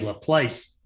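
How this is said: The name is said with an American pronunciation. "Americans would say Laplace"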